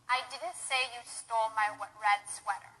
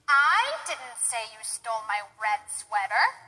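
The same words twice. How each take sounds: First: It is flat, with no word stressed. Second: The word "I" carries the stress. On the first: It is a neutral statement. "I didn't stress any words. I just said it monotone without any stress" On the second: Someone else said it. "Maybe somebody else said that you stole the red sweater, and I didn't say it"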